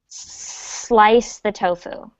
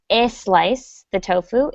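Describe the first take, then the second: First: The word starts directly with the S sound. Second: An extra vowel sound comes before the S. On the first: The speaker calls it right. "it's just slice the tofu" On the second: The speaker calls it wrong. "so it's not a slice the tofu"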